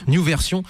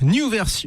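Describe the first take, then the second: First: It is said with a French accent. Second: It is said with an English accent.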